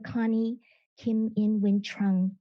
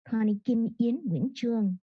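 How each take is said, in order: First: The name is said with English pronunciation. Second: The name is said with Vietnamese pronunciation.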